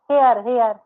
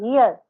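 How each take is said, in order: First: "here" said as hay-ar; mispronounced here. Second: "here" with an EE sound, HEE-ar; correct here. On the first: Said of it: "not a here". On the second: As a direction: say "here" as hee-uh, not hay-ar. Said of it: "that's called here". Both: Shown as a demonstration.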